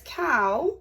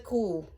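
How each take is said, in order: First: It is said in a standard English accent. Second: It is said in a Scottish accent. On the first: "it says cow" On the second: "but in Scotland it is a cool"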